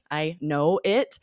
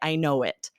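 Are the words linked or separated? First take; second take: separated; linked. First: The words are said separately and distinctly. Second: The words are blended together smoothly. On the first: The speaker calls it wrong. "It sounds nothing like that" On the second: The speaker calls it right. "I squish them together and I say"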